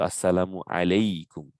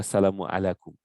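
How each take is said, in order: First: It is said as 'alaykum', with a y sound. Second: It is said as 'alakum', without a y sound. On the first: The speaker calls it right. "they add an extra ear" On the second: The speaker calls it wrong. "we don't say"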